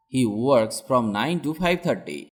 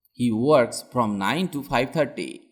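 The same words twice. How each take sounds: The two takes are said the same way.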